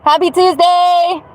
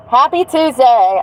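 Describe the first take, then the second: First: High, slow singsong Happy Tuesday; singsong greeting. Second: Said in the usual way. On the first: Acted.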